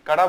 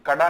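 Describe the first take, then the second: First: कड़ा with a quick retroflex flap, kaṛā; flapped ṛ. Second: कड़ा said with a hard stop, kaḍā. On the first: Teacher giving students the right form, कड़ा with flapped ṛ. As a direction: flick the tongue on the ड़ of कड़ा. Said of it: "कड़ा बोलेंगे". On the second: Teacher showing students the wrong form, कड़ा with hard ḍ. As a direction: stop the tongue firmly on ḍ in कड़ा. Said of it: "कड़ा नहीं, है ना?". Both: Shown as a demonstration.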